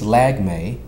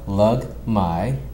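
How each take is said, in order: First: The surname is said the common way, 'Lag-me'. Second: The surname is said the Filipino way, 'Lug-mai'. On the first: This is how most people say it. "which majority of people do uh, pronounce it" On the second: This is how the family's own culture says it. "that's the Filipino version"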